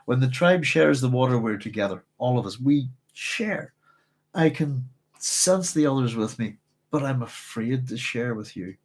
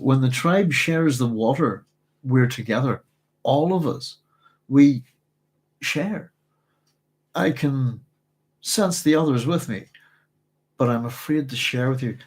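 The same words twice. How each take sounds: First: It is read smoothly without dramatic pauses. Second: It is read with many choppy, dramatic pauses.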